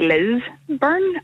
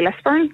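First: The stress is on the first syllable. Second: The stress is on the second syllable. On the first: "some people who say Lisburn" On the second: "like I do"

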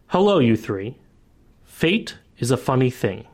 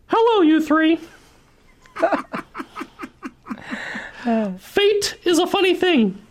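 First: It is read in the speaker's normal voice. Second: It is read in Thwar's character voice.

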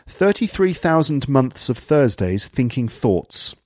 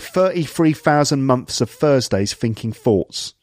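First: The th sounds are pronounced fully. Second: The th sounds become f and v. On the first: "TH sounds are pronounced fully" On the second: "someone with a London accent who would say"

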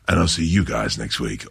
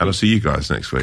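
First: It is said in a very deep, rumbling voice. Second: It is said in an ordinary speaking voice.

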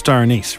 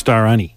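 First: The second word ends with an s sound. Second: The second word ends without an s sound. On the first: The speaker calls it right. "But no, he was looking for Star Anise" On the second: The speaker calls it wrong. "So he got it wrong"

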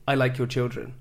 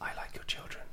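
First: It is said in a normal voice. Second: It is said in a whisper.

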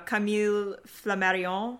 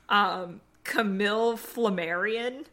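First: The name is said with a French accent. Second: The name is said with an American accent. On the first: "I just added a French accent" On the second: "I will pronounce it the way that my American ancestors decided it should be said"

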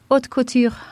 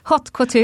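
First: It is said with a French accent. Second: It is said with a Gothenburg accent.

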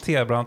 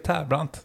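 First: The first syllable sounds like the letter T. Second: The first syllable sounds like 'tär' with an r. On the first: The speaker calls it wrong. "Du brukar säga att ibland T-brant" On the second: The speaker calls it right. "Och jag kan säga att det är Tärbrant. Inget annat"

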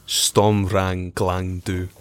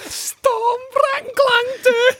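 First: It is said in his normal voice. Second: It is said in a high-pitched voice.

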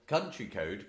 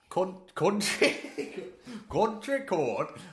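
First: It is said in the speaker's normal accent. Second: It is said in an attempted Welsh accent. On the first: "do it my own voice" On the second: "I can't do a Welsh accent"

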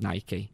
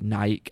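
First: It has two syllables ending in an 'ee' sound. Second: It has one syllable ending in a 'k' sound. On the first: The speaker calls it right. "it is called Nike" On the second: The speaker calls it wrong. "spelt like Nike, as in bike or Mike"

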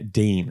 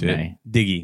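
First: The name is said as one syllable, Deen. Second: The name is said as two syllables, Diggy. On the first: This is how most people say it. "as most people pronounce it" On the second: This is a nickname one friend prefers. "Miles likes to say it"

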